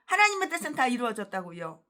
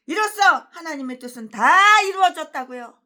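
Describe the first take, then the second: First: Said in the usual way. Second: Louder, higher with weight on 다; loud mock quote. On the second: Preacher loudly quoting a rival pastor's claim. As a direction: declaim "이로써 하나님의 뜻은 다 이루어졌다고요" loudly, punching 다. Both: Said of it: "뭐라고?".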